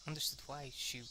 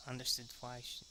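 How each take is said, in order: Both takes have the same delivery.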